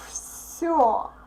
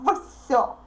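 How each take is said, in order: First: The word begins with a voiceless f sound. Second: The word begins with a voiced v sound. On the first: The speaker calls it right. "this consonant becomes voiceless too, and we pronounce it like все" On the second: The speaker calls it wrong. "you all try to pronounce this word like все, все. No"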